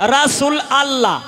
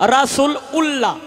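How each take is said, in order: First: The second word is said separately as 'allah'. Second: The second word is said separately as 'ullah'. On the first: "অনেকেই কয় রাসূল আল্লাহ" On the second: "অনেকেই কয় রাসূল উল্লাহ"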